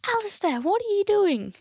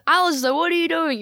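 First: High, scolding mum voice; mother's high line. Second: Higher, scolding mum voice; mother's line demo. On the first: Retold or imitated. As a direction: call out like a shocked mother. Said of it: "my mother goes". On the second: Shown as a demonstration. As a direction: show the mother calling out. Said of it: "You just".

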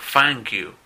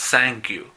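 First: "thank you" said with an f, like "fank you"; wrong f sound. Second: "thank you" said with an s, like "sank you"; wrong s sound. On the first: Teacher imitates students' common f mistake. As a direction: mispronounce "thank" with an f in place of th. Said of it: "o si no, dicen". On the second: Teacher imitates students' common s mistake. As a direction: mispronounce "thank" with an s in place of th. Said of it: "cuando dicen gracias". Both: Shown as a demonstration.

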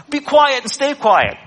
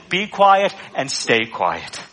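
First: Higher, louder stern telling-off; scolding parent. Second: Slow, calm and unhurried; simple calm command. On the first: Retold or imitated. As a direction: scold an unruly child. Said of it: "how you would talk to an unruly child". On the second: Shown as a demonstration. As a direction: say it simply, like it's nothing. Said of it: "simply says".

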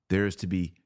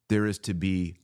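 The two takes are said the same way.

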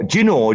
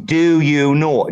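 First: "do you know" squeezed into a quick "juh-no"; "do you know" with "do you" merged into one syllable; run-together dialect form. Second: "do you know" slowly, each word in full; slow, fully pronounced "do you know"; carefully separated words. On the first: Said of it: "like, we love that shit". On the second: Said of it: "say, do, do". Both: Shown as a demonstration.

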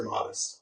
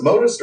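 First: Modest with a short O, "MAH-dist"; short O pronunciation. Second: Modest with a long O, "MOH-dist"; long O pronunciation. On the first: Offering the other reading to cohost, Modest with short O. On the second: Asking cohost which name is right, Modest with a long O. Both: Shown as a demonstration. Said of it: "is it Modest or Modest?".

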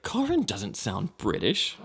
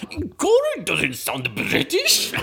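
First: Said in the usual way. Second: High, very slow exaggerated impression; Beth. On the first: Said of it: "and she was like". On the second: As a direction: overdo a friend's disbelief, dragging each word. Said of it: "your impression of, uh, Beth".

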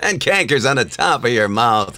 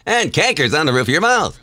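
First: Put-on cranky old sailor; old man voice. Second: Younger captain voice; middle-aged voice. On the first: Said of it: "You sounded a little too old". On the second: Acted. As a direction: take a few years off. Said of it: "do that as a middle-aged guy".

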